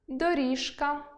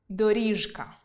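First: The consonant before к is devoiced. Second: The consonant before к stays voiced. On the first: The speaker calls it wrong. "у яких я роблю орфоепічні помилки" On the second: The speaker calls it right. "Тут дзвінки не оглушуємо перед глухим"

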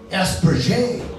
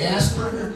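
First: The name is said with a French accent. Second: The name is said in a plain English accent.

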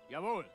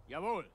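No difference in how they are said.

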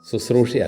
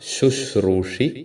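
First: It is said with a plain 's' sound. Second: It is said with an 'sh' sound. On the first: The speaker calls it wrong. "ശുശ്രൂഷി അല്ല" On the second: The speaker calls it right. "ശുശ്രൂഷി എന്ന് തന്നെ നമ്മൾ ഉച്ചരിക്കണം"

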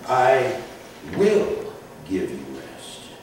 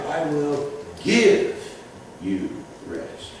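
First: The stress is on "will". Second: The stress is on "give".

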